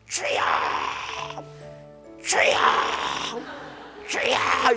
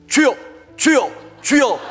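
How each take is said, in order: First: The three cries are said slowly. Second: The three cries are said very fast.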